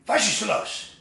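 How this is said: It sounds like a sharp, commanding order. It seems to put people down. "But then becomes a command"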